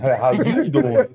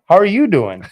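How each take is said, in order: First: It is said as a Joey Tribbiani impression. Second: It is said in his normal voice.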